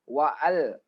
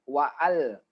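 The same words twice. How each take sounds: No difference in how they are said.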